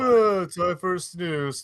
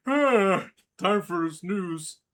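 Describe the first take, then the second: First: Sleepy voice. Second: Very slow, drawn-out sleepy line; sleepy character voice. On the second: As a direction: drag it out, half asleep. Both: Retold or imitated. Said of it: "let's not forget this".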